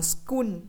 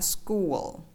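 First: The word ends with an N-like sound. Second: The word ends with a dark L sound. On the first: The speaker calls it wrong. "school đọc là school" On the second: The speaker calls it right. "mà phải là school"

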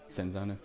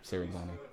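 First: The name has no extra syllable in the middle. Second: The name has an extra syllable in the middle. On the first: The speaker calls it right. "It's been Senzano the entire time" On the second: The speaker calls it wrong. "I keep calling it Serenzano"

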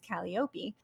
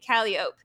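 First: It uses the original Greek pronunciation. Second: It uses the local New Orleans pronunciation. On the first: "closer to the Greek, which is" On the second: "we say"

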